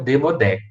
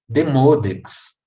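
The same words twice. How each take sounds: First: The stress falls on the last syllable. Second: The stress falls on the second syllable. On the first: The speaker calls it wrong. "mas nunca Demodex" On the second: The speaker calls it right. "a tônica está no M O"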